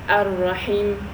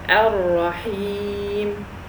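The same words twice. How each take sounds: First: The vowel after the H is kept short. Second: The vowel after the H is drawn out long. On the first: The speaker calls it wrong. "if I make it only a kasra and um, I disregarded the ya ... this is incorrect" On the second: The speaker calls it right. "So I elongated"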